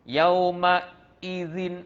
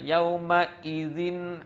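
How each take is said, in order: First: A gap breaks the flow before the hamzah. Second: The hamzah is pressed hard and sounds heavy. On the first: "Jangan sampai nampak macam ada gap. ... ah tu kena diperbaiki lagi" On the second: "jangan sampai berat sangat bunyinya. Jangan ... ah salahlah"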